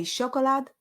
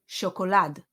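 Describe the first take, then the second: First: "chocolate" as Hebrew SHO-ko-lad; SHO-ko-lad for "chocolate", weight up front; stress on first syllable. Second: "chocolade" as sho-ko-LAD; sho-ko-LAD for "chocolade", weight at the end; stress on last syllable. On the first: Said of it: "we can either say". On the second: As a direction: punch the final syllable of "chocolade". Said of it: "or chocolade". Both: Shown as a demonstration.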